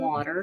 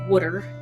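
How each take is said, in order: First: It is said in a Midwestern accent. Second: It is said in a Pennsylvania accent.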